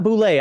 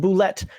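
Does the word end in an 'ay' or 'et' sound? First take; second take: ay; et. First: The word ends with an 'ay' sound. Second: The word ends with an 'et' sound. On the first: The speaker calls it wrong. "not boulet" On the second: The speaker calls it right. "It's pronounced boulette"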